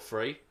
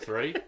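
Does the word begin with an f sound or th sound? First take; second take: f sound; th sound. First: The word begins with an f sound. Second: The word begins with a th sound. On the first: "Or free? Instead of three?" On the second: "Instead of three?"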